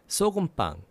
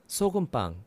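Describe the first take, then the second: Both takes have the same delivery.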